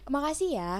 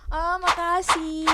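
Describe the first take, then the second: First: The thanks is said flatly, without enthusiasm. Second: The thanks is said with excited enthusiasm.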